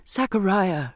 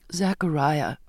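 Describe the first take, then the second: First: Understated outcry; crying out. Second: Understated tearful appeal. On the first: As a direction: call the name out in mild agitation. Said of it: "I cried out". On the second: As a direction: call the name with a touch of tears. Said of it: "I said, tearful again". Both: A narrator's reading.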